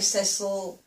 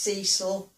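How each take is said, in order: First: It is said with a British pronunciation. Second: It is said with an American pronunciation.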